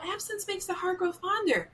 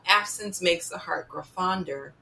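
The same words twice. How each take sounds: First: It is said in a soft, gentle tone. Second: It is said in a hard, menacing tone. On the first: Some time apart may help. "maybe you will just need a break kind of tone" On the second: Someone should be hurt. "they could be hinting that you need to go upside somebody's head with a baseball bat"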